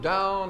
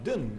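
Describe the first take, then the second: First: It has the standard 'ow' vowel sound. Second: It has a Glasgow 'oo' vowel sound.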